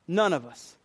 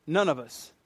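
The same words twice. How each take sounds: The two takes are said the same way.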